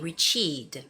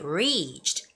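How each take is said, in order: First: The stress is on the second syllable. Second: The stress is on the first syllable. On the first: The speaker calls it wrong. "sound like you're putting the stress on the second syllable" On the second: The speaker calls it right. "the first syllable, re, is the longer one"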